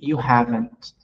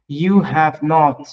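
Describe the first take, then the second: First: Have and not are merged into one word. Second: Have and not are said as full words.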